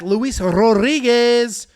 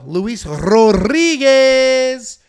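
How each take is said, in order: First: The R in Rodriguez is not rolled. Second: The R in Rodriguez is rolled.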